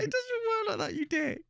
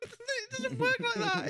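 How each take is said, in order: First: High, teary laughing words; cracking up while scolding. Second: High, slow words through laughter; half-laughing at the son's excuse. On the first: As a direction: still laughing, mock-scolding the son. Laughing at son's logic. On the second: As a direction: laugh it out in disbelief. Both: Real, not acted.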